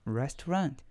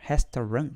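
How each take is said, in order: First: It is said with an English accent. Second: It is said with a Portuguese accent. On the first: The speaker calls it right. "now I know how to pronounce restaurant" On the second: The speaker calls it wrong. "I would say restaurant, portuguesado"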